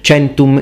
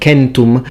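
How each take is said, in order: First: It uses the ecclesiastical pronunciation of the word. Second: It uses the classical pronunciation of the word.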